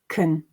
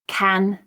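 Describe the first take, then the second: First: The vowel is reduced to a schwa. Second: The vowel is full and unreduced. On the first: "weak form"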